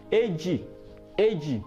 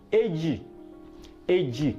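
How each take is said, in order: Both takes have the same delivery.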